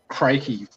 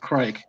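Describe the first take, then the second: First: The final E is sounded as an extra syllable. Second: The final E is silent, one syllable only. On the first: Others assumed the final letter was spoken. The speaker calls it wrong. "everyone used to have my last name pronounced Crakey" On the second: The final letter is not spoken. The speaker calls it right. "no, the E silent. It's just Craig"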